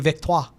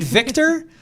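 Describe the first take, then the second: First: It is said with a put-on French accent. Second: It is said with a plain English pronunciation.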